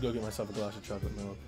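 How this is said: It is said in an odd, low voice.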